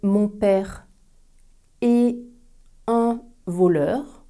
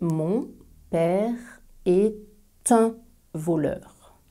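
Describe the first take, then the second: First: 'Est' and 'un' are said separately without linking. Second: 'Est' is linked to 'un' with a t sound. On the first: The speaker calls it wrong. "On ne va pas prononcer" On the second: The speaker calls it right. "On fait aussi la liaison et on dit"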